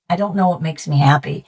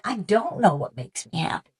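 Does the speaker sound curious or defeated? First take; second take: defeated; curious. First: It sounds defeated and hopeless. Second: It sounds curious and open. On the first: Not knowing feels like a dead end. "that was paralyzing me" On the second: Not knowing invites a search. "I switched the inflection"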